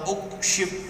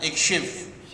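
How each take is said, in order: First: The word begins with a u vowel. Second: The word begins with an i vowel. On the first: The speaker calls it wrong. "tidak boleh" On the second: The speaker calls it right. "hamzah wasal yang dibaca kasrah"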